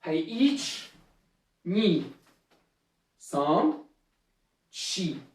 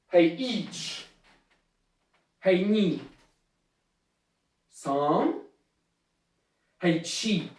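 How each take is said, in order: First: Low count with shorter gaps between numbers; quicker drill count. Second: Low count with long gaps between numbers; measured martial arts count; slower drill count. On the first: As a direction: keep the called numbers moving briskly. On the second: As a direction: call each number, then wait before the next. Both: Shown as a demonstration. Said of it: "Hey, un peu plus vite".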